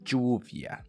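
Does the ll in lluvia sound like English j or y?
j. The ll is a strong j-like buzz. "第三次我会用J"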